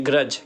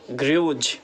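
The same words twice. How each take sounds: First: ग्रज with a short "uh" vowel; correct pronunciation. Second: ग्रूज with a long oo vowel; wrong pronunciation. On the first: Teacher corrects the reading for learners, short-vowel ग्रज. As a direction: say ग्रज to rhyme with judge. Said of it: "तो इसको पढ़ेंगे ग्रज". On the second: Teacher reads the spelling to learners, mispronounced ग्रूज. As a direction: say ग्रूज slowly with a drawn-out "yoo" sound. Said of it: "क्या ग्रज नहीं है बल्कि ये ग्रज है". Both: Shown as a demonstration.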